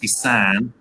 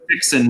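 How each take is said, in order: First: It is said with a nasal vowel, fee-san. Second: It is said like the English word fixing. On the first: The speaker calls it right. "it's Fisan" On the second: The speaker calls it wrong. "although it's not pronounced that way"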